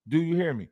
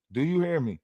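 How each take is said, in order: Both takes have the same delivery.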